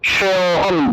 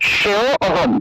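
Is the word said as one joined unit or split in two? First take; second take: joined; split. First: It is joined, with the preceding vowel lengthened. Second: It is split, with a full separate 'a' sound. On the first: The speaker calls it right. "এটাকে একসাথে উচ্চারণ করতে হবে।" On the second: The speaker calls it wrong. "সেও অহম এরকম অটাকে পূর্ণ উচ্চারণ করে ফেলেন। এরকম আলাদা আলাদা করে অরূপে উচ্চারণ করলে হবে না"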